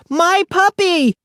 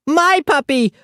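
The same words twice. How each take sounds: First: Put-on higher, slower drawn-out toddler wail; stretched toddler wail. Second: Put-on high toddler scream. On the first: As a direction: drag it out like a bigger tantrum. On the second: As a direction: scream it like a tantrum. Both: A narrator's reading. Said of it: "Aki screamed".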